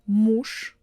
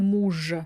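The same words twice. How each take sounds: First: The final consonant is voiceless, like sh. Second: The final consonant is voiced, like zh. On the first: The speaker calls it right. "You see, I replaced all of them" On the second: The speaker calls it wrong. "I'm not saying муж"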